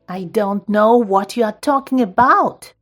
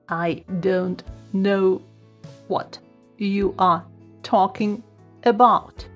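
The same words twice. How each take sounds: First: It is said in an angry voice. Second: It is said in a robotic voice. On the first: "Now try to say with angry voice" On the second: "Then robot voice"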